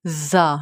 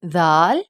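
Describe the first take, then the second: First: زا with a hard buzzing z; sharp z in زا; hard letter sound. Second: زال with soft "dh", held long; soft letter sound. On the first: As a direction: say زا as a firm "zaa". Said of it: "زا کو hard پروناؤنس کیا جاتا ہے". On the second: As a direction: say زال as a gentle "dhaal". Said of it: "زال کو soft پروناؤنس کیا". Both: Shown as a demonstration.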